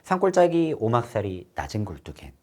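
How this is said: The phrase is broken up at natural points. The speaker calls it right. "자연스럽게 끊어 읽으면"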